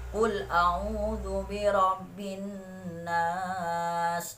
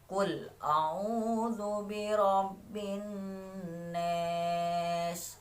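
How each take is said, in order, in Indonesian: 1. Vokal kata terakhir terdengar seperti 'a' terbuka. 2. Vokal kata terakhir terdengar seperti 'e'. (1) "contohnya saja kalau Imam Hafaz" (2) "lafaz Anas itu dibaca Anes"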